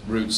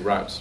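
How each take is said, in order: First: The vowel sounds like the one in 'boot'. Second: The vowel sounds like the one in 'out'.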